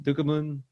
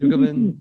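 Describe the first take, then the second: First: Said in the usual way. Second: Ducommun blurted high and loud; loud, high attempt at Ducommun; exaggerated try. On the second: Shown as a demonstration. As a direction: shout out the name Ducommun as a wild guess. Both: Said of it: "I don't know how to say that".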